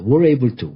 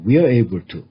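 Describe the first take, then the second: First: We are is contracted into one syllable. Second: We are is said as two full syllables. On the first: "We are를 줄인 발음은 were" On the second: "또는 We are able to"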